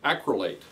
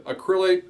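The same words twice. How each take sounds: First: ACRYLATE stressed on the first syllable, AK-ruh-late; "acrylate" set down firmly as AK-ruh-late, falling; corrected pronunciation. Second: ACRYLATE stressed on the second syllable, uh-KRIL-ate; tentative pronunciation. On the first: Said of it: "that's how you pronounce it". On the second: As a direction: say "acrylate" hesitantly as uh-KRIL-late. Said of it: "I'm gonna try to pronounce this". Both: Shown as a demonstration.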